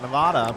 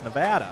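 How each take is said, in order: First: It uses the widely heard, non-local pronunciation. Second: It uses the pronunciation heard from local residents. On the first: This is how most outsiders say it. The speaker calls it wrong. "Everybody calls it Nevada" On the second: This is how people who live there say it. The speaker calls it right. "I found out from the locals that it's Nevada"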